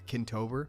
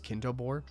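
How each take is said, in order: First: The last syllable sounds like 'ber'. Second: The last syllable sounds like 'bor'. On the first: Someone else said it this way. The speaker calls it wrong. "she mispronounced something" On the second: It is the name spelled backwards. The speaker calls it right. "Robotnik backwards"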